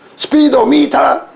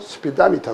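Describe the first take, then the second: First: The vowel after "speed" is a full "o". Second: The vowel after "speed" is weak and reduced. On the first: The speaker calls it wrong. "스피도미타 이거 아닙니다" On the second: The speaker calls it right. "삼 번으로 약해지면 스피다미타 그래요"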